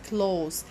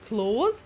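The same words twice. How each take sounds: First: The final consonant is a hissing s sound. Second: The final consonant is a buzzing z sound. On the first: Near, or dear to someone. "when you pronounce it as as" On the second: To shut something, like a door. "when you pronounce s as is, z"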